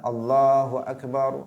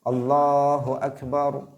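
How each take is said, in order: First: The ba of Akbar is drawn out long. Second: Only the la of Allah is drawn out. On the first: The speaker calls it wrong. "memanjangkan huruf ba-nya" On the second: The speaker calls it right. "mestinya seperti itu. Yang panjang hanya pada lam"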